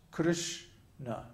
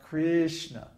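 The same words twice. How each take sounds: First: "Krishna" as "Krsh-na", split and short; short first vowel. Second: "Krishna" as "Kreeshna", first vowel drawn out; long "ee" mispronunciation. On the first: Teacher showing the right way, "Krishna" in two short syllables. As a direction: clip the vowel in "Krishna", pause before "na". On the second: Teacher showing the wrong way, "Krishna" with long "ee". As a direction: stretch an "ee" into the first syllable of "Krishna". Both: Shown as a demonstration. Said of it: "there's no I sound".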